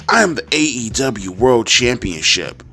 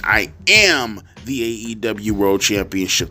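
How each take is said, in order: First: Said in the usual way. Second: Am leaned on, slower; slow it down and stress am. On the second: Shown as a demonstration. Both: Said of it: "Or I guess he means".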